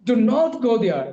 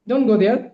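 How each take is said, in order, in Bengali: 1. রেগে বলা, শব্দগুলো আলাদা হয়ে যায়। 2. সাধারণ স্বরে বলা, শব্দগুলো একসাথে মিশে যায়।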